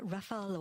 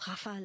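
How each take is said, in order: First: It is said with an English pronunciation. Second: It is said with a French pronunciation.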